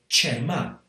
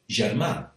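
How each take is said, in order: First: It is said in the apitxat Valencian accent. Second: It is said in a non-apitxat Valencian accent. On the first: "you get pronunciations of things like" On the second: "whereas I would be more likely to say"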